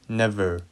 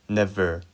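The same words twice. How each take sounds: Both takes have the same delivery.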